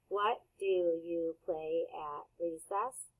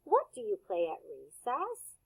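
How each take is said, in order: First: Slower and softer, every word clear; slow model repeat. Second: Said in the usual way. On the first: Shown as a demonstration. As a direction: say "What do you play at recess?" slowly for kids to echo. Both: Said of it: "repeat that sentence".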